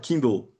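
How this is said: Kindle is said with English sounds. This is how the word is actually said. The speaker calls it right. "se fala Kindle"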